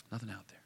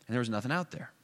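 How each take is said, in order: First: A hushed repeat of the line, left in the air; quiet echo. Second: Said in the usual way. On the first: A narrator's reading. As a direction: drop much softer, letting it hang. Echoes the empty road.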